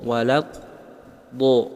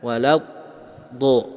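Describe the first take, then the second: Both takes have the same delivery.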